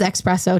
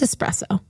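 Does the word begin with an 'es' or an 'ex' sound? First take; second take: ex; es. First: The word begins with an 'ex' sound. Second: The word begins with an 'es' sound. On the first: The speaker calls it wrong. "He says espresso, too" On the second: The speaker calls it right. "It's espresso"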